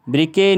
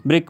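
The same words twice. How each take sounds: First: ब्रिके in two syllables, "bri-kay"; wrong reading, final e sounded. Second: ब्रिक as one short syllable, "brik"; correct silent-e reading. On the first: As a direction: add a long "ay" to the end of ब्रिके. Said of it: "ब्रिके नहीं पढ़ेंगे हम इसको". (ब्रिके के आख़िर में "ए" बोलकर) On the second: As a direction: stop ब्रिक on the k, no vowel after it. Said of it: "ब्रिक पढ़ेंगे इसे हम". (ब्रिक में आख़िरी ई silent) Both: Shown as a demonstration.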